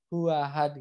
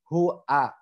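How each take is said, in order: First: The vowels run together without a glottal catch. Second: A clear glottal catch separates the two vowels. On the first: The speaker calls it wrong. "Kadang kita masih banyak orang yang bacanya" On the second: The speaker calls it right. "Tapi di sini harus jelas"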